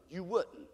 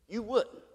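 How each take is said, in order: First: You wouldn't, barely above a breath; very soft. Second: Said in the usual way. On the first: Acted. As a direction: say it low, almost to yourself. Repeated answer.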